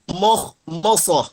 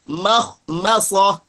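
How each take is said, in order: First: The vowels are thick 'o'-like sounds. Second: The vowels are thin 'a' sounds. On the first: The speaker calls it wrong. "jangan moh-mosoh ... ditebalkan mimnya" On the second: The speaker calls it right. "jangan sampai menebalkan huruf mim"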